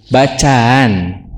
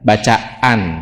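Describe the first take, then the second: First: The a sounds join with a soft, unclear break. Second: A glottal catch separates the two a sounds. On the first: "Kalau di tashil jadi bacaan" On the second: "tahsian itu pakai hamzah"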